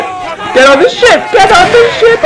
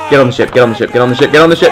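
First: "Get on the ship" climbing much higher each time; rising pitch. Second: Said in the usual way. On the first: Pretend. Gamer urging his crew aboard, high and urgent.

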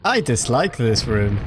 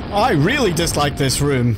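First: Said in the usual way. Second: "really" pitched up and louder; stress on really. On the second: Real, not acted. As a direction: lean hard on "really".

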